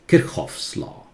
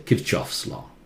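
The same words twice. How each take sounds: First: The ch is a breathy German sound. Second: The ch is said as in church. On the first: The speaker calls it right. "It's pronounced the German way" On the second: The speaker calls it wrong. "So do not say Kirchhoff's law"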